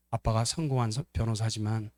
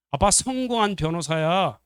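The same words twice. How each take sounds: First: Lower, subdued acted sympathy; tender concession. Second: Higher, slow, emphatic acted protest; indignant boast. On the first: Loving son agrees with sibling about Dad, tender. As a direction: concede it gently. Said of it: "이렇게 말할걸요". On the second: Son insists Dad is a successful lawyer, indignant. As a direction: insist on it, offended. Unloving son's retort, contrasted later.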